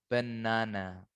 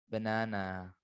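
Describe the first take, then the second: Both takes have the same delivery.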